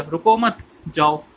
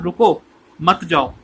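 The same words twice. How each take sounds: First: "रुको मत" run together, break, "जाओ"; slow misread phrasing, जाओ set apart; pause after मत. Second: Firm रुको, break, slow "मत जाओ"; intended phrasing, comma after रुको; pause after रुको. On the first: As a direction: attach मत to रुको, then release जाओ. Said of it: "लोगों ने क्या मतलब ले लिया?". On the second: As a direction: punch रुको, keep मत with जाओ. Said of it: "finance act कहना चाहता था". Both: Shown as a demonstration.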